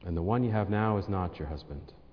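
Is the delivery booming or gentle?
gentle. It is said in a soft, gentle voice. It sounds caring and free of judgment. The speaker calls it right. "I hope he said it kind of like this"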